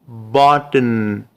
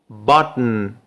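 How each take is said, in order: First: It is said slowly, with a schwa before n. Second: The final n is syllabic, with no vowel.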